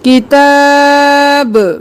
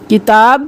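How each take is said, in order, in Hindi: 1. आख़िरी b उछाल के साथ बोला जाता है। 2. आख़िरी b बिना उछाल के बोला जाता है। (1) "जब गिरेगी तो कलकला होगा" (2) "किताब नहीं करना"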